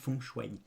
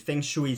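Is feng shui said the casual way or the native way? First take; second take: native; casual. First: Feng shui is said the native way. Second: Feng shui is said the casual way. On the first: This is how the term is really pronounced. "mais on prononce feng shui" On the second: This is a way some people prefer to say it. "si vous préférez"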